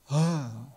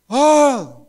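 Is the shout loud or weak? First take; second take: weak; loud. First: It is a weak, quiet little cry. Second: It is shouted loudly with force.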